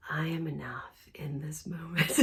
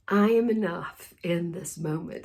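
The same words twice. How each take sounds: First: Soft, breathy whispered affirmation; hushed, serene whisper; calm whisper. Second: Said in the usual way. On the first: Shown as a demonstration. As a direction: whisper it like a still meditation. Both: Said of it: "Just in this very calm, still place".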